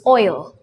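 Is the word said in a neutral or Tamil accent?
neutral. It is said in a neutral English accent. The speaker calls it right. "the correct pronunciation for the word oil is oil"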